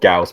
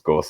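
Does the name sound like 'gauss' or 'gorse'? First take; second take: gauss; gorse. First: The vowel sounds like 'house', as in gauss. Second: The vowel sounds like 'horse', as in gorse. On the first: The speaker calls it right. "I know it's supposed to be called Gauss" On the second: The speaker calls it wrong. "I want to call it Gorse because Gorse sounds cooler"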